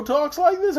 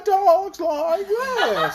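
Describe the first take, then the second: First: High put-on character voice; Scarecrow. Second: Very high, slow, wobbling voice; bumpy man's voice. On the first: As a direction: lift it high to imitate a talking straw man. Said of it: "except the Scarecrow talks like this". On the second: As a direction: shake each drawn-out word up and down. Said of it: "and this guy talks like this". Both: Shown as a demonstration.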